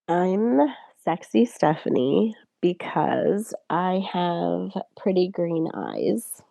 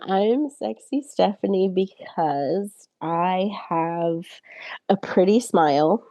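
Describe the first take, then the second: First: It is said slowly, softly and seductively. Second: It is said in a cute, bright tone.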